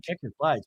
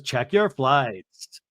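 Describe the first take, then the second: First: "Check your flights" softer and quicker, as a question; quiet, questioning "Check your flights"; imitated puzzled echo. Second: "Check your flights" stretched out very slowly; "Check your flights" as a slow, deliberate statement; imitated slow instruction. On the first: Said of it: "now we're like". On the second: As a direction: draw out each word of "Check your flights". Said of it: "then Lisa goes".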